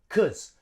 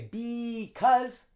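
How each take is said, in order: First: The first syllable is dropped, leaving only 'cause'. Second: The word is said in full, with its first syllable. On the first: The speaker calls it right. "we drop the B. Cause" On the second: The speaker calls it wrong. "we don't say because"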